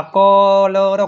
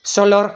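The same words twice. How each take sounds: First: કલર drawn out slowly with a hard K; correct K reading. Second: સલર starting with S in place of K; misreading with S. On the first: Teacher sounds out કલર for students, slowly with K. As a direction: stretch કલર, starting on K. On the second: Teacher quotes someone's misreading સલર, with an S sound. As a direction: misread colour as સલર, S at the front. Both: Shown as a demonstration. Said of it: "કોઈએ વાંચ્યું".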